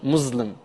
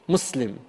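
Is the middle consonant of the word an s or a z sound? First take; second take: z; s. First: The middle consonant is a buzzing z sound. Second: The middle consonant is a hissing s sound. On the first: The speaker calls it wrong. "Sounds like the buzzing of a mosquito" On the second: The speaker calls it right. "Put a double S"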